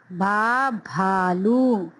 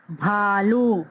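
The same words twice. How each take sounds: First: भालू drawn out with aspirated भ; slow model reading. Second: Said in the usual way. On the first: Shown as a demonstration. Teacher modelling भालू for the class. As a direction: stretch भा then भालू slowly. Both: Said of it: "इनकी आवाज को समझते हैं".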